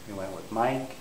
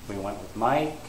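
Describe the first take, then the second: The two takes are said the same way.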